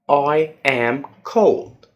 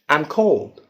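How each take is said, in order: First: It is said slowly with full words. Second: It is said faster with words joined.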